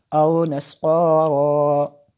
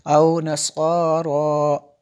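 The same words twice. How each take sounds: First: औ नस्वारा with औ drawn out very long; long vowel. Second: औ नस्वारा with औ stretched just as long; long vowel again. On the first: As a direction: stretch the औ in औ नस्वारा. (औ नस्वारा में औ को लंबा खींचें) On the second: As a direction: draw out औ the same length. (औ को उतना ही लंबा) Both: Shown as a demonstration. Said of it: "दोनों को ही जितना लंबा करेंगे".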